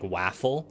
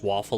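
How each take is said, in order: First: The first vowel is like in apple. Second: The first vowel is not like in apple.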